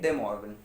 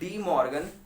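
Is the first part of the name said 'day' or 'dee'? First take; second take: day; dee. First: The first part is pronounced 'day'. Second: The first part is pronounced 'dee'. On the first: This follows the French way of saying the name. The speaker calls it right. "लेकिन हम यहाँ पे बोलेंगे डे Morgan" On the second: This is the common everyday pronunciation. The speaker calls it wrong. "सीधी सरल भाषा में जो ज़्यादातर लोग बोलते हैं"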